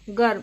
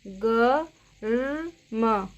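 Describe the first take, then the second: First: Said in the usual way. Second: गर्म stretched very slowly, each sound drawn out; slow spelled-out word. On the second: Shown as a demonstration. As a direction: drag गर्म out syllable by syllable. (गर्म को बहुत धीरे खींचकर बोलना) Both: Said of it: "इसकी आवाज़ रेफ की कैसे आती है".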